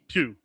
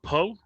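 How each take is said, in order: First: The surname ends in an 'ew' vowel sound. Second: The surname ends in an 'oh' vowel sound. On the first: The speaker calls it right. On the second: The speaker calls it wrong.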